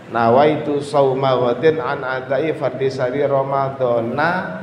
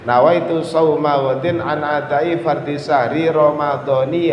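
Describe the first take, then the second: First: The last word ends with an a vowel. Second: The last word ends with an i vowel. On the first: "Kalau dibaca ramadhana" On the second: "Kalau sampean ingin baca hadis sanati Ramadhani"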